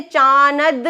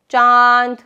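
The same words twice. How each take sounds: First: चानद with a full n said between the vowel and द; चानद, the n spoken out as a wrong example; wrong n sounded. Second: चांद said with a nasalised आ and no spoken n; चांद, nasal vowel, no n sound; nasal vowel demo. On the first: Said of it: "चानद नहीं कहा". (गलत तलफ़्फ़ुज़: चानद, नून साफ़ बोलकर) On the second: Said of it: "चांद में हमने चानद नहीं कहा". (चांद नाक से, नून बोले बिना) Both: Shown as a demonstration.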